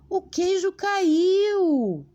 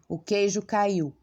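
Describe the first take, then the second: First: It is said in an astonished, surprised tone. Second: It is said in a serious, stern tone.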